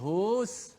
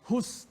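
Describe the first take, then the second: First: The vowel is drawn out long. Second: The vowel is short, running straight on. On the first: The speaker calls it wrong. "tak boleh panjangkan hu itu" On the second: The speaker calls it right. "Hus terus"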